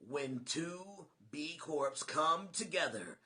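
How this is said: It is said in a movie-trailer voice.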